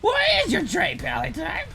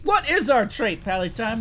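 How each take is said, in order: First: It is said in a put-on voice. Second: It is said in his normal voice.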